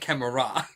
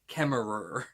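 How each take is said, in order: First: The name is said with an Australian accent. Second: The name is said without an Australian accent. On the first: The speaker calls it wrong. "that's how we pronounce it in Australia" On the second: The speaker calls it right. "I should be saying Bridget Kemmerer"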